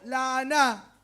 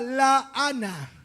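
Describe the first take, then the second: First: The stress is on the last syllable. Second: The stress is not on the last syllable.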